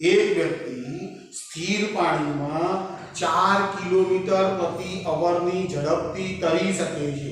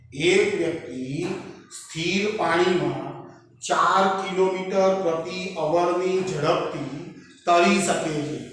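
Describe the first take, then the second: The two takes are said the same way.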